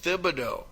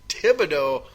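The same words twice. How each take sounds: First: An h sound follows the first t. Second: No h sound follows the first t. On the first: This is how the name is said locally. "is how you say the name all of a sudden correctly" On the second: This is how the name is said nationally. "on a national level for five years the guy was referred to almost exclusively"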